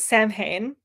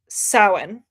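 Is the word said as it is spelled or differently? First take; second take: as spelled; differently. First: The word is said just as it is spelled. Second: The word is said unlike its spelling. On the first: The speaker calls it wrong. "I want to pronounce it Samhain because that's how it's how it looks" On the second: The speaker calls it right. "I think, is how it's pronounced"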